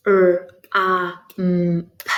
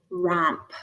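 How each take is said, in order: First: R, A, M, P as isolated phonemes; chopped into sounds. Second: Said in the usual way. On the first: Shown as a demonstration. Teacher chopping a word into units, separated phonemes. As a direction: chop it into R, A, M, P. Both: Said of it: "time to do some chopping".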